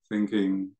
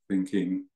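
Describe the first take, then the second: First: It is said in a soft, gentle tone. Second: The same.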